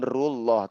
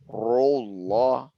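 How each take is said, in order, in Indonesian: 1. R-nya dibaca tipis. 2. R-nya dibaca tebal. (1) "bukan rullah" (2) "tapi ditebalkan justru"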